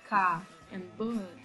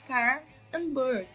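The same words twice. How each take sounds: First: The R at the word ends is dropped. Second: The R at the word ends is pronounced. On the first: "in England we say" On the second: "in U S A you say"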